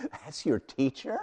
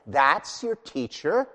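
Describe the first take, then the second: First: "That's your teacher?" said through a laugh; Yahweh laughing at the idol-maker; laughing God. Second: Slow scornful "That's your teacher?" with a rise; God mocking the idol-maker, slow and scornful; mocking question. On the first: Acted. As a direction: chuckle as you mock the idol. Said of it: "Can you hear the laugh in Yahweh's voice?". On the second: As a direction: drag out "your" in mock disbelief. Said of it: "you hear the mocking in his voice".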